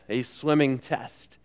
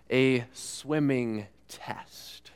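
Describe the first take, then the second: First: Said in the usual way. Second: Hushed whisper of "a swimming test". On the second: Shown as a demonstration. Preacher hushes the phrase to the congregation, slow whisper. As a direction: breathe "a swimming test" slowly, unvoiced.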